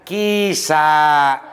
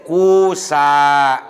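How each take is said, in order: First: The first vowel is a long ee sound. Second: The first vowel is a long oo sound. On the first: "Bisa ianya ditetapkan, tidak digantikan kepada wawu" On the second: "Bisa digantikan kepada wawu"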